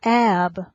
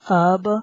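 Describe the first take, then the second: First: The vowel is the open 'a' of 'cat'. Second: The vowel is the short 'u' of 'cup'. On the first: The speaker calls it wrong. "It's not ab" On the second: The speaker calls it right. "It's ub"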